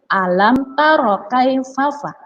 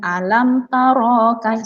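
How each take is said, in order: First: "taro" with a short, clipped ro, slowly; correct short reading. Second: "taro" with the ro wrongly stretched long; demonstrating the wrong long ro; wrong reading demo. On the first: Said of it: "Tidak ada bacaan panjang". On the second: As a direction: show the mistake by lengthening "taro". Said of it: "salah ya adik-adik". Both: Shown as a demonstration.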